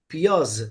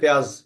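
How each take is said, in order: First: The word is said in two syllables, pi-yaz. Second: The word is said in one syllable, pyaz. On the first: This is the original Persian pronunciation. "जिनकी जबान का लफ्ज है, वो इसको कैसे बोलते हैं साथियों?" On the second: This is how it is said in the subcontinent. "हम लोग बोलते हैं प्याज।"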